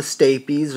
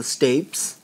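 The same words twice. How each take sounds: First: Stapes said as STAY-peez; two-syllable pronunciation. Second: Stapes said as STAYPS, rhyming with tapes; one-syllable pronunciation. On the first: Teacher naming the middle ear bone, stapes as STAY-peez. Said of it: "which pronunciation is correct". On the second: Teacher offering the other pronunciation, stapes as STAYPS. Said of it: "I've heard it both ways". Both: Shown as a demonstration.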